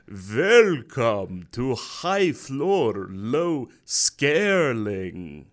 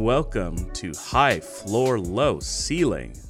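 First: It is said in a put-on Dracula voice. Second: It is said in the speaker's normal voice. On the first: "This is a good Dracula you got going over there" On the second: "I forgot. I was gonna do a voice"

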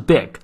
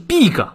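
First: The vowel is short and lax. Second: The vowel is long, like 'ee'. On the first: The speaker calls it right. "而是big" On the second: The speaker calls it wrong. "不是长e 不是big"

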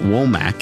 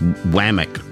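First: The first vowel sounds like 'oh'. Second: The first vowel sounds like 'ah'. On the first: The speaker calls it wrong. "it's not Womack" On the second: The speaker calls it right. "it's Wamack or something"

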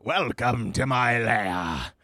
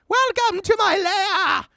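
First: It is said in a plain voice. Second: It is said in a Joker-like voice.

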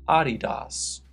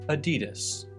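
First: It is said the original German way. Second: It is said the American way.

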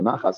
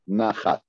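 First: The word is said with Ashkenazi pronunciation. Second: The word is said with non-Ashkenazi pronunciation.

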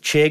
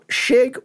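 First: The name begins with a hard ch sound. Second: The name begins with a soft sh sound. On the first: This follows how people usually say it. "we're sticking with Chig because that's just what people call me" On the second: This follows the name's original source. "Shig would actually probably be the proper pronunciation because it comes from Anton Chigurh"

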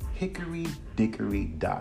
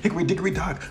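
First: It is said slowly, with a steady rhythm. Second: It is said fast, without the rhythm.

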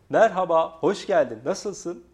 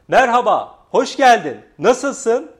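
First: The voice is pitched slightly higher, mid range. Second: The voice is pitched higher and sounds excited. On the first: "Bu re" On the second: "Burada biraz fa, coşku ve heyecan var"

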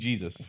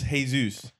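First: The name is said with an English pronunciation. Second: The name is said with a Spanish pronunciation. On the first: The speaker calls it wrong. "why are we calling him Jesus? It's not Jesus" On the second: The speaker calls it right. "we know it's Jesus"

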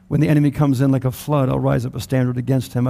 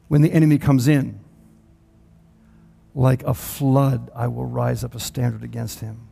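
First: It runs on with no pause after "comes in." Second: There is a pause after "comes in."

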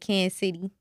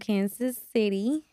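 First: The name is said quickly in local pronunciation. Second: The name is said slowly and carefully. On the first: "We say Kansas City. Like, where we from" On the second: "I tried to say it real slow so I won't butcher"

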